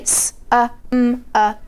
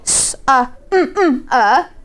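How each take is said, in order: First: The m sound is made once. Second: The m sound is made twice. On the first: The speaker calls it right. "We say" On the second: The speaker calls it wrong. "We don't say"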